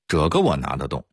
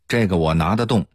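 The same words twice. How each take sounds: First: It is said in a Dingxing accent. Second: It is said in a Beijing accent. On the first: "定性话是" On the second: "北京话说"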